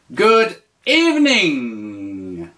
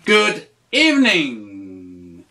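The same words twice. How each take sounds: First: Slow, clear teacher model; slow model phrase. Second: Slow, lower repeat. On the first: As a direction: say it slowly for the learner. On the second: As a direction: repeat it slowly, a bit lower. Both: Shown as a demonstration. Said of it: "tu dis".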